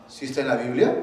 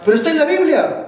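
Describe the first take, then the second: First: Said in the usual way. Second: Loud, high, rapid-fire objection; protesting objector. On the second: Acted. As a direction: burst in like someone contesting the preacher. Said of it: "Pero cualquiera dirá". (objeción airada, aguda y fuerte)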